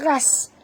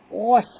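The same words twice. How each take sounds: First: The first consonant is thin and light. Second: The first consonant is thick and heavy. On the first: The speaker calls it wrong. "Jangan baca ghas" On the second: The speaker calls it right. "huruf ghain kena baca tebal"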